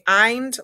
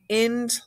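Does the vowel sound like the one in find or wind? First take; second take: find; wind. First: The vowel sounds like the one in find. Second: The vowel sounds like the one in wind. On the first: "like find" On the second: "like wind"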